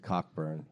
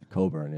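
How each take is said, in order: First: The name begins with 'cock', with a k sound. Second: The name begins with 'co', with no k sound. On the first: The speaker calls it wrong. "Many people pronounce it Cockburn, which is sounds painful" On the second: The speaker calls it right. "Coburn, yeah"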